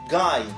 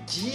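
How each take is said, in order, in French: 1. Le nom est prononcé avec des sons anglais. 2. Le nom est prononcé avec des sons français.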